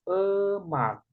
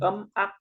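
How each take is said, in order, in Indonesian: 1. Suku katanya menyambung menjadi satu kata. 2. Dipisah menjadi dua suku kata yang terpisah. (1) "tapi emak" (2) "bukan em ak"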